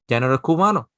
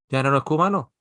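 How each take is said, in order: Both takes have the same delivery.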